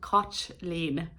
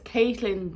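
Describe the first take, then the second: First: The name is given its Irish pronunciation. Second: The name is given its anglicized pronunciation.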